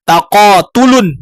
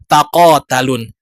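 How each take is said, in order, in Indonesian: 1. Suku kata ketiga memakai vokal u. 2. Suku kata ketiga memakai vokal a. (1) "ain fi'il dibaca dhammah"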